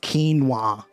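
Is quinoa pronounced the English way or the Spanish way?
English. It is pronounced the English way. "in English, it's pronounced quinoa. I don't like that pronunciation"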